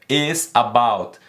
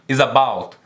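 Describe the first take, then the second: First: The two words are said separately. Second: The two words are joined as one word. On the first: The speaker calls it wrong. "você não pronuncia is about" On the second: The speaker calls it right. "você pronuncia tudo junto"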